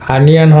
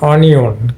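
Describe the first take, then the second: First: The word begins with an open 'ah' vowel. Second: The word begins with a rounded 'oh' vowel. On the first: The speaker calls it right. "এটা কিন্তু আনিয়ান হবে" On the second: The speaker calls it wrong. "এটা কিন্তু ভুল উচ্চারণ"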